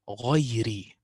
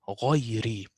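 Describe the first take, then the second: The two takes are said the same way.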